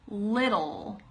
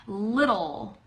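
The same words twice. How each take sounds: Both takes have the same delivery.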